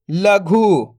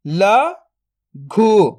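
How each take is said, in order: First: Said in the usual way. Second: "लघु" split into ल, then घु, very slow; drawn-out breakdown of "लघु"; syllable by syllable. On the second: Shown as a demonstration. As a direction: sound out ल ... घु with a long gap. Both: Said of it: "तो मिलके बन जाएगा".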